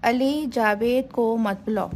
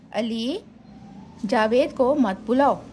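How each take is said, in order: First: Said in the usual way. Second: Long pause after "Ali"; comma pause. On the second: Shown as a demonstration. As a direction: say "Ali", stop, then "Javed को मत बुलाओ". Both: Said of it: "जहाँ ज़रूरत हो वहाँ सक्ता का निशान".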